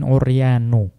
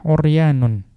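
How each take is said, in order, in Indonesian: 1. Kata itu berakhir dengan vokal tanpa "n". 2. Kata itu berakhir dengan bunyi "n" tambahan. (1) "bukan uryanu" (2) "maka dibaca dengan tanwin"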